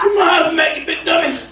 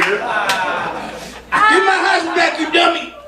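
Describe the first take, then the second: First: Put-on high, shouted old-man yell; Sanford voice. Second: Put-on slow, drawn-out old-man yell; Sanford voice. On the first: Comic retrying the Sanford bit, high shout. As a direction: holler it higher. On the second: Comic retrying the Sanford bit, slow yell. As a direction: stretch it out and holler. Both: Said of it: "It worked last week".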